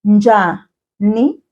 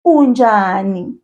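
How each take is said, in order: First: "Unjani" slowly, split into separate syllables. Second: Said in the usual way. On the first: Shown as a demonstration. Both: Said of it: "Repeat after me".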